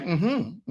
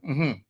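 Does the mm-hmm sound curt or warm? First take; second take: warm; curt. First: It is said warmly, as if smiling. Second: It is said short and flat, without warmth. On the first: "I said it with a smile" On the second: "that's not how I said it"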